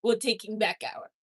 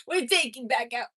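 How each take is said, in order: First: Said in the usual way. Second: Put-on half-found French accent on we're taking back our; attempted French accent. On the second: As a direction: try the line as a mock Frenchman. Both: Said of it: "I gotta find the accent".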